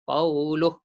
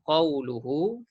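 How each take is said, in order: First: The word ends on a bare h, no vowel. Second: The final h is followed by a lengthened vowel. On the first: The reading stops at this word. "Matikan ha tu" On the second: The reading continues into the next word. "Baca panjang dua harakat. Ketika silah"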